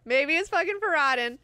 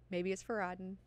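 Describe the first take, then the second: First: Louder, higher excited hunch; raised-voice eureka moment; emphatic realization. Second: Softly musing to oneself; tentative, softly spoken hunch; quiet realization. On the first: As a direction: hit it hard as it dawns on you. Emphatic repeat of the thought. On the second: First thought, then emphatic repeat. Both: Acted.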